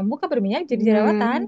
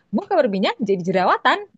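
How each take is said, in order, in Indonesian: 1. Kata-katanya lemas, diseret, dan saling menyambung. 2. Kata-katanya jelas, bertenaga, dan terpisah dengan baik. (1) "bukan yang" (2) "harus yang"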